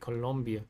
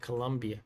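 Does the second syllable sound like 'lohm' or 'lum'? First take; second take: lohm; lum. First: The second syllable has an 'o' vowel. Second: The second syllable has a 'u' vowel. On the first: The speaker calls it right. "You say Colombia" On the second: The speaker calls it wrong. "don't say Colombia, because an O there, not a U"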